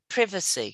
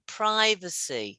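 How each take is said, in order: First: It is said in a British accent. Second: It is said in an American accent. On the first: "U K, vitamin, privacy" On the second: "So Americans, it's vitamin, privacy"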